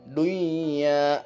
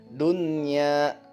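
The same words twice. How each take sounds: First: The n is merged into the y sound. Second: The n is sounded clearly before the y. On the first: The speaker calls it wrong. "Jangan lagi baca dunya" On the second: The speaker calls it right. "Ini dia contohnya"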